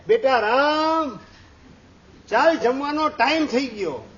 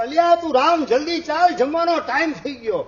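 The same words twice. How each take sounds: First: Lightly acted mother's summons; motherly call. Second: Higher, louder harried summons; acted father's urgent shout; impatient calling out. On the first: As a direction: call your son in to eat, unhurried. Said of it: "અને બૂમ પાડે". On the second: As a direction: yell after a child running away. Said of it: "એની પાછળ બૂમ પાડતા જાય".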